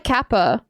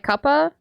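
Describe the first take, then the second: First: Kappa with a short a, "kap-pa"; kappa, the wrong way. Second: Cuppa with an uh vowel, "kuh-puh"; cuppa, British style. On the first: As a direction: say kappa with the a of cat. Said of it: "Not like kappa". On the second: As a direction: say cuppa with the u of cup. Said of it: "but like cuppa". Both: Shown as a demonstration.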